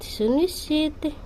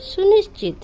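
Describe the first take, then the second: First: सुनिश्चित said again slowly and softer, syllable by syllable; teacher repeating सुनिश्चित slowly. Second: Said in the usual way. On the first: Shown as a demonstration. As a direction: drill सुनिश्चित slowly for the class to copy. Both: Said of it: "assure को हम हिंदी में बोलेंगे".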